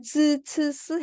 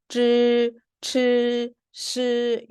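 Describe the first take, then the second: First: 쯔, 츠, 스 high, with the tongue flat, a plain hissed s; non-retroflex. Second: 쯔, 츠, 시 higher, tongue curled to zh, ch, sh; retroflex. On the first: Teacher recalls earlier set for comparison, uncurled 쯔, 츠, 스. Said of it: "아까는". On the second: Teacher shows the new set, curled-tongue 쯔, 츠, 시. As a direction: curl the tongue tip up on 쯔, 츠, 시. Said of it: "혀를 말아줘야 돼요". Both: Shown as a demonstration.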